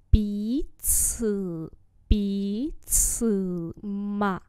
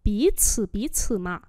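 First: Bí cử, bí cử mà with pauses between syllables; slow demonstration. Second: Said in the usual way. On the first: Shown as a demonstration. Teacher repeats a phrase for learners, slowly. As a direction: separate and stretch Bí cử, bí cử mà.

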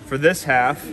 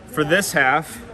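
The two takes are said the same way.

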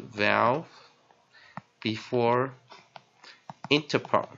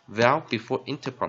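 First: "vowel, before, interpon" with long pauses; word by word. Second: Said in the usual way. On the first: Shown as a demonstration. Teacher dictating a spelling rule, slow and spaced. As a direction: separate each word of the formula deliberately. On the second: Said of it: "的公式".

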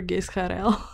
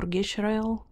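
First: Gisharel said as "gis-ka-rel"; Gisharel, split like "Gis-karel"; preferred pronunciation. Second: Gisharel with a "sh", like "GISH-arel"; alternative pronunciation. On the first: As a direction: say Gisharel with s and a hard k, no sh. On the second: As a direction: try Gisharel softly with sh in the middle. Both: Shown as a demonstration. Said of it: "I prefer Gisharel".

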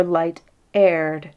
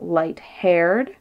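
First: "light-aired" with no H, slowly. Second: "light-haired" with the H sounded; aspirated H. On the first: King puzzling over the pun, "light-aired" without an H. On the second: King puzzling over the pun, "light-haired" with its H. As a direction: say "light-haired", breathing the H before "aired". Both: A narrator's reading. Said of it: "why might she not aspirate her".

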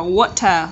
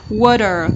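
First: "water" with a true T; clear T alternative. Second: "Water" with the T softened to a quick D; middle T. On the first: Teacher offering students the other option, clear T. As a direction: sound the T in "water" fully, no D. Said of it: "T trung âm. Hoặc là". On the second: Teacher showing middle T to students, tapped T. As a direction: tap the T in "Water" like a D. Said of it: "T trung âm". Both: Shown as a demonstration.

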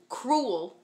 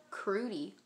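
First: Cruel said as krool, one syllable, by mistake; the word cruel, krool; slip of the tongue. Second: Crudy said as kroo-dee, ending in dee; crudy with a clear dee at the end; right word. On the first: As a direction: cruel slipped out instead of crudy. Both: Shown as a demonstration. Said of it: "No, not cruel".

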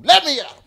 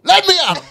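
First: High, loud, scrappy cartoon-pup yell; Scrappy Doo. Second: Even higher, loud cartoon-pup yell; scrappy little dog straining to fight; Scrappy Doo. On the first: Man doing Scrappy Doo while recalling his rage, high loud yell. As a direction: charge in like a tiny eager cartoon dog. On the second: Man repeating Scrappy Doo line, high loud yell. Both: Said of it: "I was like Scrappy Doo".

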